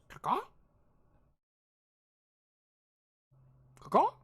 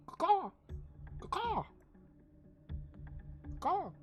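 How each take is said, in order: First: High, loud rising bird caws; questioning caw. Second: High falling eagle caws; bird caw. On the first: GM voicing the curious hippogriff with head cocked. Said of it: "cocks its head and goes". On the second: GM voicing the hippogriff cawing at the player. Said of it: "Caw-caws at you". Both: Acted.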